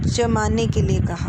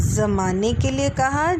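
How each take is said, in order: First: जमाने said jamane with hard j; j sound. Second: जमाने said zamane with z; z sound. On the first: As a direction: say जमाने with j as in jam. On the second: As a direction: try जमाने with a buzzing z. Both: Shown as a demonstration. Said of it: "जमाने वाला दूसरा शब्द सही है".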